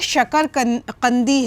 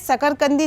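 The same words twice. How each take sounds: First: The word begins with an sh sound. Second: The word begins with a plain s sound. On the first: The speaker calls it right. "ये शकरकंदी है" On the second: The speaker calls it wrong. "ये शकरकंदी नहीं है"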